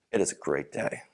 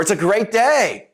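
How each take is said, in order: First: Much lower and softer, deflated; low, quiet, unenthusiastic mumble; glum. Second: Higher, louder and slow, bursting with cheer; drawn-out cheerful exclamation; enthusiastic. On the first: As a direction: say it like you don't mean it at all. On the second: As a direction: sell the line with big upbeat energy. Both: Shown as a demonstration. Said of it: "I said two very different things".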